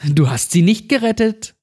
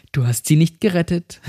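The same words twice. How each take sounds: First: Much higher mocking repeat, leaning on gerettet; jeering child's taunt, gerettet stretched high; shrill taunt. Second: Sing-song mocking, pitch raised a little; mild mocking taunt, stress on sie. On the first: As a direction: twist the knife, higher and harder. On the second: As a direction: needle him with it, first time. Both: A narrator's reading. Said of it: "Cindy verhöhnte mich".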